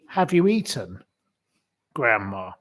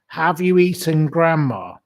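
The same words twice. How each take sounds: First: There is a pause before grandma. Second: It is said without a pause before grandma.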